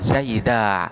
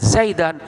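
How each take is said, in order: First: The word ends with a long a vowel. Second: The word ends with a short a and n. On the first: The speaker calls it wrong. "bukan Zaida" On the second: The speaker calls it right. "tetap dia itu akan dibaca Zaidan"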